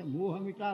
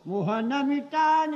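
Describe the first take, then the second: First: "મોહ મિટા" with મોહ ending on the vowel, no n, said softly; corrected lyric. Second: Sung slowly as "મોહન મિટા ને", with the extra n in મોહન; wrong lyric reading. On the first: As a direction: quietly correct it to "મોહ", never મોહન. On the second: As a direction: slowly chant "મોહન", not મોહ, higher and louder. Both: Retold or imitated. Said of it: "મોહન નહીં".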